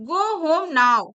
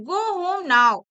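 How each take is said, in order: The two takes are said the same way.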